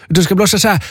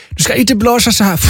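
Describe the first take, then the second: First: Raised pitch, mock German accent. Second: Higher-pitched mock German accent. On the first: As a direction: lightly imitate a German woman showing the right way. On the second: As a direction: lightly imitate a German woman showing the wrong way. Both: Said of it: "hon pratade lite så här med tysk accent".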